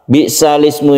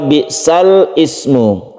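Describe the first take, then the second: First: Sal runs straight into ismu without a break. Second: A glottal stop separates sal from ismu. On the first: The speaker calls it right. "bagaimana cara membacanya yang betul" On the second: The speaker calls it wrong. "asal bacanya ya, bukan yang benar"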